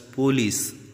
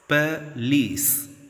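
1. बलाघात पहले अक्षर पर है। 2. बलाघात दूसरे अक्षर पर है। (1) "It's wrong" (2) "Lease, there must be a stress"

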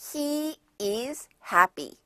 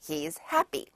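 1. He와 is는 따로 두 단어로 발음해요. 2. He와 is는 하나로 줄어든 한 음절로 발음해요.

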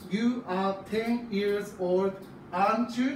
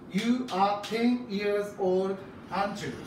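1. 付加疑問の最後は音が上がります。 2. 付加疑問の最後は音が下がります。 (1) "一応疑問文なので、上げてね、読むことがほぼです。" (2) "下げて読むときもあります。"

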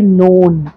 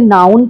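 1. स्वर 'no' शब्द जैसा सुनाई देता है। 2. स्वर 'now' शब्द जैसा सुनाई देता है। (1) "इसे आप बोलेंगे नोन" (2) "बहुत से लोग इसे नाउन पढ़ते हैं और ये बिल्कुल गलत है"

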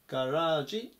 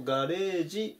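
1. 2番目の母音は長い 'a' です。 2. 2番目の母音は長い 'e' です。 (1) "ガラージと読むのが正しい発音" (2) "日本語だとガレージっていうふうに言う"

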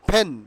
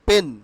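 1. p-টি জোরালো বাতাসের ফুঁ দিয়ে উচ্চারিত হয়। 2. p-টি বাতাসের ফুঁ ছাড়া উচ্চারিত হয়। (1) "পেন উইল বি pronounced ফেন" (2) "নট পেন"

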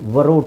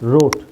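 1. r ಗಿಂತ ಮುನ್ನ w sound ಹೇಳಲಾಗುತ್ತೆ. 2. ಪದ ನೇರವಾಗಿ r ನಿಂದ ಶುರುವಾಗುತ್ತೆ. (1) "ವ ರೋಟ್ ಅಂತ ಹೇಳಲ್ಲ" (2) "ಡಬ್ಲ್ಯೂ ಹೇಳಲ್ಲ"

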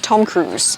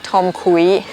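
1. Cruise มีเสียงสระ oo ล้วนๆ ก่อนเสียง s 2. Cruise มีเสียงสระ oo เลื่อนไปเป็นเสียง ee (1) "เป็นสระอูแล้วเติมเสียงด้านหลังเฉยๆนะคะ" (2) "ไม่ใช่"

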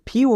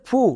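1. সিলেবলটি y-glide সহ 'fyoo' হিসেবে উচ্চারিত হয়। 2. সিলেবলটি সাধারণ 'foo' হিসেবে উচ্চারিত হয়। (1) "FU ফিউ হবে" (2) "ফু না"

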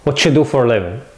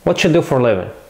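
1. يُدمج 'What do you' في صوت 'whatcha'. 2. يُدمج 'What do you' في صوت 'whatcha'.

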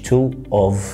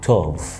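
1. تُقال الكلمتان منفصلتين. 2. تُربط الكلمتان ببعض. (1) "انا ما قلتش two of" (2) "لا انا ربطتها ببعض توف"

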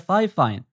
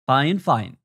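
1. المقطع الأول يُنطق مثل "fai". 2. المقطع الأول يُنطق مثل "fine". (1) "كنت أنطقه فاي فاين" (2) "لكن النطق الصحيح فاين فاين"

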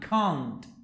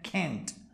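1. Se dice con acento británico. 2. Se dice con acento americano. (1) "En inglés británico es" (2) "En americano"

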